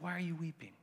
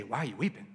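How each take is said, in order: First: Much softer, tender "Why are you weeping?". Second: Said in the usual way. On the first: Shown as a demonstration. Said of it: "He's like". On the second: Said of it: "He doesn't say".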